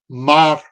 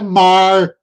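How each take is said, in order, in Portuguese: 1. O R final é um toque rápido da língua. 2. O R final é curvado para trás, na parte da frente. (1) "que é o T E P, é, que é anteriorizado também, mas não é retroflexo" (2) "que é super anteriorizado"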